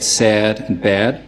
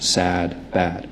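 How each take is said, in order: First: Raised New York vowel in "sad" and "bad"; New York "sad" and "bad", vowel gliding like "air"; tense New York "a", toward "eh-uh"; New York accent. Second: Softer, lower, unraised Philadelphia vowel; Philadelphia accent. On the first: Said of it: "In a New York accent". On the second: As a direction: open Philadelphia "a" in "sad" and "bad". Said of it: "something more open like my own". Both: Shown as a demonstration.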